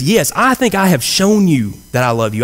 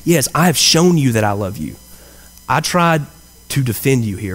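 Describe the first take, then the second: First: A touch indignant, pitch up, insisting he has proved it; the wrong take, a little put out and self-justifying; mildly affronted Peter protesting his love; defensive tone. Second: The right take, humble and heartfelt; sincere. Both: Shown as a demonstration. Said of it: "I don't think that's the kind of tone that he used here".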